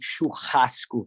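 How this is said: It is said with an h-like r sound. "in most places of Brazil, you're gonna say churrasco"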